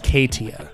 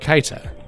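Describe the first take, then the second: First: The 'ee' sound comes after the T. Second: The 'ee' sound comes before the T. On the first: The speaker calls it wrong. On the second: The speaker calls it right.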